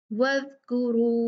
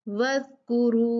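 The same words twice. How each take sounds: The two takes are said the same way.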